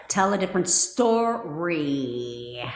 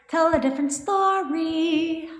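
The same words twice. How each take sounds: First: "story" stretched long and slow; drawn-out refrain. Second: Slow, high, held "story"; high singsong refrain. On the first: Coach prompting viewers to change their thinking, drawn-out refrain. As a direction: slowly draw out "story", letting it sink. Chants the advice, drawing it out. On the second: Coach nagging viewers to change their thinking, high singsong refrain. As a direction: sing it out high, stretching "story". Repeats the advice, now high. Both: Shown as a demonstration.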